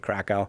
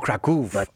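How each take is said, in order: First: The name is said with an American-style pronunciation. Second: The name is said with a Polish-style pronunciation. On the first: "here in the U.S., we say Krakow" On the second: "You just put the accent, though, a little bit more on the Kraków"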